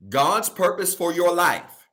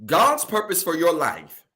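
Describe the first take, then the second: First: Slow, higher-pitched emphatic repeat; deliberately slow. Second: Said in the usual way. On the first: Shown as a demonstration. Preacher repeating the key point for the congregation, deliberately slow. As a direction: say it slowly so every word lands. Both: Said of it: "I wanna say this again slow".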